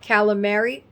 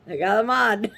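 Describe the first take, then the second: First: Full standard form with all final vowels pronounced. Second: Clipped dialect form with a hard g, no final vowel. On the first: This is how people locally say it. "over here they say" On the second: This is how the speaker's family says it. "we say it that way"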